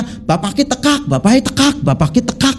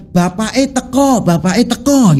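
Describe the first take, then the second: First: Higher Banyumas ngapak tekak, open a at the end; preacher mimicking Banyumas speech, ngapak accent. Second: Plain Javanese bapak eh teko, teko with an o; preacher demoing ordinary Javanese, standard Javanese accent. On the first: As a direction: chant bapak eh tekak like a Brebes speaker, tekak open and clipped. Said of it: "ngomongnya beda". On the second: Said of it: "kalau orang kita itu bilang". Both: Shown as a demonstration.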